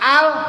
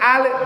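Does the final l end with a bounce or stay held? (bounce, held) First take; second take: held; bounce. First: The l is held with no release sound. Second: The l ends with a small bouncing release. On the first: The speaker calls it right. "udah al nempel di atas" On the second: The speaker calls it wrong. "maka itu akan ada bunyi pantul, pantulan. Seperti al"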